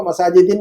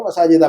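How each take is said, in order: First: मसाजिदिन with the wrong -in ending. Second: मसाजिदा ending in -a, said lower; correct ending. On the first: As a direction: say मसाजिदिन ending in -in, as the form to avoid. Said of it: "मसाजिदिन नहीं पढ़ेंगे". (मसाजिदिन गलत -इन अंत के साथ) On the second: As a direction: say मसाजिदा with a final -a, as the right form. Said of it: "मसाजिदा पढ़ेंगे". (मसाजिदा सही -आ अंत के साथ) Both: Shown as a demonstration.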